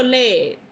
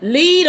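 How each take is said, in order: First: "lead" said to rhyme with bed; second pronunciation of lead. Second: "lead" said to rhyme with need; first pronunciation of lead. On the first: Unsure how to read it, "lead" as led. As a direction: say "lead" with a short e. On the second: Unsure how to read it, "lead" as leed. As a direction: say "lead" with a long ee. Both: Shown as a demonstration. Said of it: "lead or lead?".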